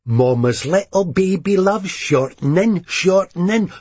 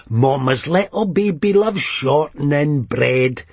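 First: Sung, mocking sing-song nursery tune; sung, tuneless mock lullaby. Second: Off-key sung line ending the tune; half-sung mocking ditty; sung, tuneless mock lullaby; tuneless singing. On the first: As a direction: sing it badly, off-key and higher. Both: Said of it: "she sang tunelessly".

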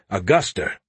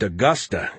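First: "Augusta" said as "Augustar"; added final R. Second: Said in the usual way. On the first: Acted. Joe corrects the name, "Augusta" as "Augustar". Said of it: "it's Augusta". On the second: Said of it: "the capital of Maine isn't Augusta".

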